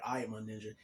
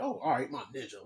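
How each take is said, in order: First: Said in the usual way. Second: Imitating a condescending put-down. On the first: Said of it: "I was like". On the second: Older janitor echoes the teenager's greeting to insult him, condescending. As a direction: mockingly echo it, with a rising swoop. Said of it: "she said it in a condescending way".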